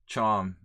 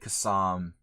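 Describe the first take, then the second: First: The name begins with a ch sound. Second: The name begins with a k sound. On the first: The speaker calls it right. "it's pronounced ch" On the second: The speaker calls it wrong. "We were like Kassam"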